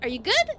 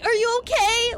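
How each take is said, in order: First: It sounds upbeat and happy. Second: It sounds worried and concerned.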